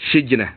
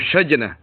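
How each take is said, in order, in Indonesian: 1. Vokal pertama adalah bunyi i. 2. Vokal pertama adalah bunyi a. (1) "dibaca dengan kasrahnya" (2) "wa fathi"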